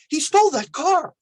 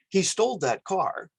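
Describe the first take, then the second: First: It is said in an excited tone. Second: It is said in a neutral tone.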